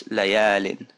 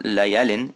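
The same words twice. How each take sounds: First: Layalin slow with the a held long; right version with alif; stretched a. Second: Layalin with a short plain a; wrong version without alif; unstretched a. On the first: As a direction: draw out the a in layalin. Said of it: "it's layalin". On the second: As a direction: keep the a in layalin short and slow. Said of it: "it's not layalin". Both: Shown as a demonstration.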